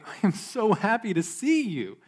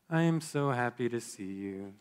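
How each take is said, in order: First: The voice is warm, bright and sincere. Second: The voice is quiet, flat and low. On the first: The speaker truly means the words. "with a cheerful voice and a sincere smile" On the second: The speaker is not really happy and seems down. "quiet monotone, your eyes looking away"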